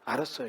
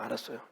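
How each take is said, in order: First: Chungcheong "알았어요" lifted with a rising tune at the end; questioning repeat. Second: Chungcheong "알았어요" said low and soft, falling flat; a noncommittal Chungcheong yes, low and soft; Chungcheong-style reply. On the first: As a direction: hand the phrase back as a puzzled question. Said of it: "이게 무슨 뜻이에요?". (끝을 올려 되묻듯이 "알았어요") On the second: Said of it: "왜 충청도 말로". (충청도식으로 낮고 조용하게 얼버무리듯) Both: Retold or imitated.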